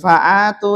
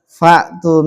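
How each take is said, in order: First: An extra 'a' vowel follows the first syllable. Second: The consonant after 'fa' carries no vowel. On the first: The speaker calls it wrong. "bukan fa'atu itu" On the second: The speaker calls it right. "Itu disukun ya"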